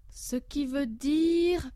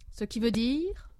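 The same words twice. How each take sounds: First: Very slow, coaxing teacher; drawn-out prompting. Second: Said in the usual way. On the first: Acted. Professor coaxing a pupil, very slow and drawn out. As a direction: stretch it out, waiting for the answer.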